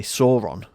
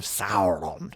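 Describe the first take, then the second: First: Sauron said as SORE-on; spelling pronunciation. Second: Sauron said as SOW-ron, rhyming with "now"; corrected pronunciation. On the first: Explaining how book readers say Sauron, as SORE-on. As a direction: say Sauron with an "or" vowel, as spelt. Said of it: "you'll have a different pronunciation". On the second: Explaining the film's way of saying Sauron, with "ow". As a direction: say Sauron with an "ow" vowel, slowly. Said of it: "A U symbol is pronounced ow". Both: Shown as a demonstration.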